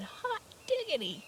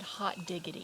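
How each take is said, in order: First: Much higher, excited burst on diggity; surprised exclamation. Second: Said in the usual way. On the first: Shown as a demonstration. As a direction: shout it like you just got a great surprise. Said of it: "something people say when they are surprised". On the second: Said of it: "Have you ever heard that before?".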